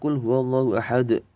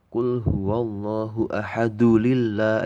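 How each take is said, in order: First: It stops on ahad with a bouncing final d. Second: The d takes a vowel and links onward. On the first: The verse ends here. "kalau enggak kita teruskan mati, mantul dia" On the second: The recitation continues to the next verse. "sudah bukan bacaan kol-kolah lagi"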